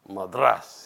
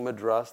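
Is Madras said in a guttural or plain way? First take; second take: guttural; plain. First: It is said gutturally, in a contemptuous North Indian way. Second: It is said in the speaker's own plain way.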